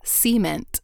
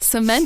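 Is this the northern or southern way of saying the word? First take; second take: southern; northern. First: The word is said the southern way. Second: The word is said the northern way. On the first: "Southerners say cement" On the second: "Cement is like a northern thing"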